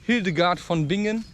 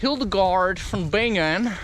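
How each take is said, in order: First: The name is said with German pronunciation. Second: The name is said with English pronunciation. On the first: The speaker calls it right. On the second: The speaker calls it wrong.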